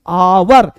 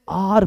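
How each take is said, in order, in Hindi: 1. यह शब्द दो अक्षरों में बोला जाता है, 'aa-war'। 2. यह शब्द एक अक्षर में बोला जाता है, 'aar'। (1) "कुछ लोग आवर पढ़ते हैं" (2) "कुछ लोग इसे आर पढ़ते हैं"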